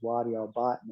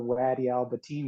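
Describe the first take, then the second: First: The last word has a short i vowel. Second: The last word has a long ee vowel. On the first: This is how local people actually say it. The speaker calls it right. "and it was Wadi Al Batin" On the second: This is the version they were taught to say. The speaker calls it wrong. "the way they told us how to pronounce the town is nothing like the way it was pronounced"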